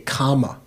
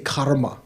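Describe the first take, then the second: First: There is no R sound before the M. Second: An R sound comes before the M. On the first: This is the Pali form. The speaker calls it right. "you say kama" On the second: This is the Sanskrit form. The speaker calls it wrong. "You don't say karma"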